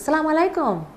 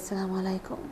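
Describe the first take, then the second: First: It is said in a bright, upbeat mood. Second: It is said in a low, down mood.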